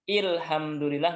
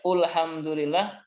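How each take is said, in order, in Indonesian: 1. Kata ini diawali dengan vokal i. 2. Kata ini diawali dengan vokal u. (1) "Nggak boleh dibaca dengan ilhamdulillah, nggak boleh" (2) "Atau u, ya ulhamdulillah, nggak boleh"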